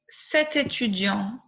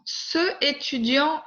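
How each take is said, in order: First: Said in the usual way. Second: "ce étudiant" said higher as the error; wrong form. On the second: Shown as a demonstration. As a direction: mark "ce étudiant" as the mistake. (« ce étudiant », forme fautive)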